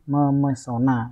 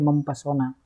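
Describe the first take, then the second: First: The p sound is dropped after the prefix. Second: The p sound is kept after the prefix. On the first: The speaker calls it right. "yang betul" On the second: The speaker calls it wrong. "Tidak boleh mempesona karena luluh"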